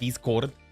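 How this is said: It is pronounced as read with Spanish sounds.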